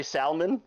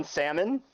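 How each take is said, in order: First: Salmon as "SAL-mun"; L-pronounced salmon. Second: Salmon as "SAM-un"; silent-L salmon. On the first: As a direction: sound out the l in salmon. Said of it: "But you don't say salmon". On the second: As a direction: say salmon with no l at all. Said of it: "do you say the L in salmon". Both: Shown as a demonstration.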